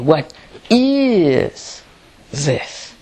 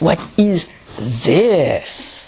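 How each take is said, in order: First: The stress falls on the word is. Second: The stress falls on the word this. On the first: "Or is more important?" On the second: "Or more on the this"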